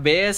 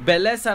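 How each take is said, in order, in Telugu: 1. Double L ను Y లాగా పలుకుతారు. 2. డబుల్ L ను L లాగా పలుకుతారు. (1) "డబుల్ ఎల్ అని ఇక్కడ స్పానిష్ లో వైగా ప్రొనౌన్స్ చేస్తారనమాట" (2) "సో బెలెస్ అనుకోవచ్చు కదా"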